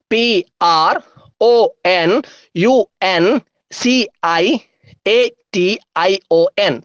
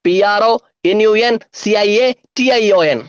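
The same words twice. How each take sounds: First: Letters set apart with pauses; deliberate, letter-by-letter dictation; slow spelling. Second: Letters bundled into quick groups; brisker, grouped letter chant; speedy spelling. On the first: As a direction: spell it out slowly for writing down. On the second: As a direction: rattle off the spelling in chunks. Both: Shown as a demonstration. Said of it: "സ്പീഡിൽ എങ്ങനെ പറയാം".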